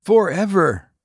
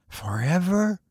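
First: Higher, firm falling promise; firm repeat. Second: Hushed, higher solemn question. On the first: Wolfgang answers the stranger, firm and sure. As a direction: seal the vow firmly. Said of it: "repeated Wolfgang". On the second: The stranger asks Wolfgang, solemn and hushed. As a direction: ask it softly, gravely. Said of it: "said the stranger solemnly". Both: A narrator's reading.

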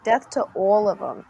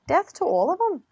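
First: Demonstrated Jersey vowels on the line; Jersey accent. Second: Higher, lilting attempt at a Scottish accent; sing-song the line like a Scot; sing-songy Scottish. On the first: Showing co-host it's not Scottish, Jersey accent. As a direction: say it like someone from Jersey. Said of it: "It's like a Jersey accent". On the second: Showing co-host the difference, sing-songy Scottish accent. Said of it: "It would be more sing-songy in Scottish". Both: Shown as a demonstration.

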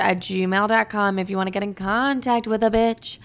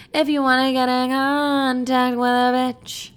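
First: Said in the usual way. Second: A touch higher, in a campy character voice; sassy put-on voice. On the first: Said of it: "repeats it in another voice". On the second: Host repeating her email line, now in a sassy put-on voice. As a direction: say it again as a sassy diva. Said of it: "repeat in a put-on voice".

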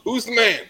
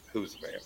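First: High, loud imitated holler; yelled from a boat. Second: Leaning-in catchphrase. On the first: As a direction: call it out across the water. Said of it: "he'd just yell from the boat". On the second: Retold or imitated. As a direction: drop it softly, leaning in close. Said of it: "lean down and be like".

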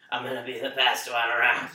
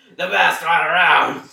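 First: Said in the usual way. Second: Loud, slow yell; shouting. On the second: Acted. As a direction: yell it out triumphantly. Shouted repeat.

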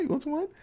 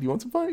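First: Even higher, softer teasing repeat; higher, quieter sing-song taunt; creepier repeat. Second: Higher, teasing offer; higher playful mock offer; mock creepy host. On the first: Retold or imitated. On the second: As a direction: dangle the wine like a creepy clown. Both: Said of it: "he's like".

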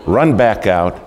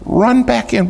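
First: Said in the usual way. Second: Fed-up squeal at the repeat; exasperated high pitch. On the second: Real, not acted. Third soaking, exasperated retelling.

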